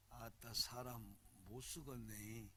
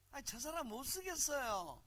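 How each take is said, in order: First: Low, slow, soft Jeolla drawl; 전라도 사투리. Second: High-pitched mock Seoul accent; 서울말 흉내. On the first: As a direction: savor the Jeolla accent slowly and quietly. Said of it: "전라도 말 봐". (낮고 느긋한 전라도 억양) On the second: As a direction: put on a polite, soulless Seoul voice. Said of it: "영혼이 없는 언어지". (높은 음의 영혼 없는 서울 말투) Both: Shown as a demonstration.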